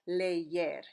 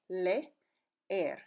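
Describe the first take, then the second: First: A y sound links the two vowels. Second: The two e sounds are said separately. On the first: "it actually takes on a Y sound in between them" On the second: "each sound says e"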